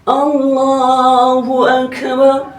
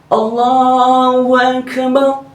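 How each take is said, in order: No difference in how they are said.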